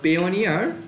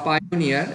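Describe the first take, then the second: First: The first syllable sounds like 'peh'. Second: The first syllable sounds like 'pie'. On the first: This is the speaker's own usual pronunciation. "আমি পেওনিয়ারই উচ্চারণ করি" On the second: Some other people say it this way. "এক একজন এক একভাবে উচ্চারণ করে"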